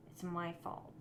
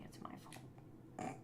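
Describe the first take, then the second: First: Said in the usual way. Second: A slow, much softer grudging aside; grudging mutter. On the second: Shown as a demonstration. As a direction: mumble it half to yourself, grudgingly. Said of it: "okay, I'm building it incorrectly".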